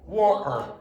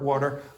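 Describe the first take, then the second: First: It is said with an Irish accent, glottal T. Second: It is said with an American accent. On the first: "I will say water, wa, wa, wa, water" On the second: "it's sort of like American water"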